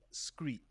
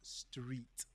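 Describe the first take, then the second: First: The word starts with an 'scr' sound. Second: The word starts with an 'str' sound. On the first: This is how it was said as a child with a speech impediment. The speaker calls it wrong. "I used to say screet" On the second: This is the pronunciation learned through years of conscious effort. The speaker calls it right. "slowing down and saying"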